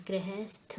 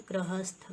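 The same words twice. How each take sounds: First: गृहस्थ as "grehesth"; wrong pronunciation. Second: गृहस्थ as "grahasth"; short a vowels in गृहस्थ; correct pronunciation. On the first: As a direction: put e vowels in गृहस्थ. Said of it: "लिखा है". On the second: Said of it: "ये क्या होता है हमारा?". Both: Shown as a demonstration.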